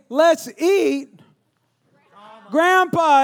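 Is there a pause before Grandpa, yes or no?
yes. There is a pause before Grandpa.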